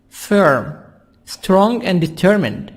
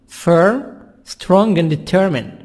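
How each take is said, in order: The two takes are said the same way.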